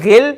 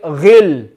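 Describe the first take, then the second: First: The gh sound is thin, with spread lips. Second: The gh sound is full and heavy. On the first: The speaker calls it wrong. "we don't want to say ghil" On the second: The speaker calls it right. "we want to say ghil. Don't smile"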